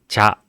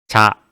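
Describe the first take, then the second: No difference in how they are said.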